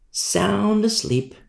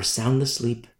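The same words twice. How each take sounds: First: "Sound asleep" said slowly, SOUND held long; drawn-out emphasis. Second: Said in the usual way. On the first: Real, not acted. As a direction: SOUND stretched long and slow, higher. Repeats phrase, drawn out for emphasis.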